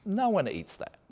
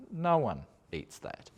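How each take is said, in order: First: High, disbelieving no one eats that, with No jumping up high; incredulous. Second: Deadpan. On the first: To viewers about a supposed Aussie food, high and incredulous. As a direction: scoff at the idea with No pitched up high. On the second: Repeating the point to viewers, slow deadpan. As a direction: settle it flatly and slowly. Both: Real, not acted.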